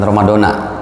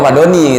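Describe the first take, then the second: First: The word ends with an 'a' vowel. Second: The word ends with an 'i' vowel. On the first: The speaker calls it wrong. "jadi jangan Ramadana" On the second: The speaker calls it right. "maksudnya Ramadhani gitu"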